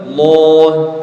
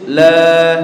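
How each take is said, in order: First: The L sound is thick and heavy. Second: The L sound is thin and light. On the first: "kalau tebal" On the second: "kalau tipis"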